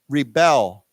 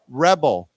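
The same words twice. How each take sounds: First: The stress is on the second syllable. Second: The stress is on the first syllable. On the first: It is a verb naming an action. "the accent goes on the second syllable" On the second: It is a noun naming a person. "as a 名词"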